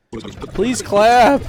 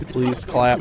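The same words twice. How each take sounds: First: Please clap, pitched up and louder; higher, louder mock plea for applause. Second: Said in the usual way. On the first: Shown as a demonstration. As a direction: beg the room for applause, hammed up. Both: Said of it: "That's the second time he's tried".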